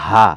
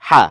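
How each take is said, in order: First: The h sound is a light, plain breath. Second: The h sound is pressed tight in the throat. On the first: The speaker calls it wrong. "এই হা না" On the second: The speaker calls it right. "একটু চাপ দিয়ে পড়বেন"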